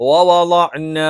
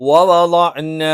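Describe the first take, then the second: The two takes are said the same way.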